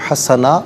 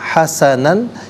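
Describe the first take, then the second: First: The word ends with a long a vowel. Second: The word ends with an n sound. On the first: The reader stops at this word. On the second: The reading continues without stopping.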